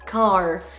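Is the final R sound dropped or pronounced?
pronounced. The final R is clearly pronounced. "en American English, ça va être un R assez prononcé"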